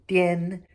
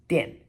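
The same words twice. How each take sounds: First: The pitch stays high and level. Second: The pitch falls sharply from high. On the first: "first tone" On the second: "fourth tone"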